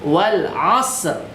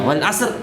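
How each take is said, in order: First: It is said slower with a drawn-out hiss. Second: It is said quickly with a short hiss. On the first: The speaker calls it right. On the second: The speaker calls it wrong.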